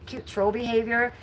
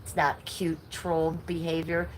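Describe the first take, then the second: First: Mocking sing-song. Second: Said in the usual way. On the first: Mocking the troll's excuse.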